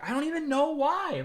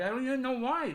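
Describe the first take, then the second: First: High, mocking whine of his excuse; mocking whiny voice. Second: High mocking whine, a bit softer; mocking whine again. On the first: Streamer mocking the shrew's excuse, high whiny voice. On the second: Streamer repeats the shrew's excuse, softer whiny mock.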